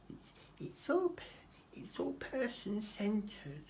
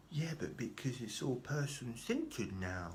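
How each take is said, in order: First: Very high, drawn-out silly voice; exaggerated social worker. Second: Slow, higher-pitched mocking voice; put-on social worker. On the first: Social worker excusing the system, in absurdly high mock voice. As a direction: push the caseworker parody right up high and slow. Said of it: "I don't know why I'm talking like that". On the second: Social worker explaining to her client, mockingly drawn out. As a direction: draw it out in a put-on caseworker voice. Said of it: "She didn't say it like that".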